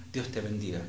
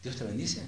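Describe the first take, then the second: First: Casual, softer throwaway blessing; offhand blessing. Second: "¿Dios te bendice?" as a soft question, rising on "bendice". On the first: Preacher showing how people bless each other lightly, offhand. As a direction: toss off the blessing lightly, as a routine phrase. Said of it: "uno dice así ligeramente". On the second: Preacher asking whether God really blesses you, questioning with "bendice" rising. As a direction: softly question it, lifting the end of "bendice". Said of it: "Y la pregunta es". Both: Shown as a demonstration.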